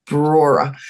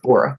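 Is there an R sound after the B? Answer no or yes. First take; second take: yes; no. First: The first syllable is said with an R after B. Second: The first syllable is said with no R after B. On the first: The speaker calls it right. "that's called Brora" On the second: The speaker calls it wrong. "I cannot do that first R"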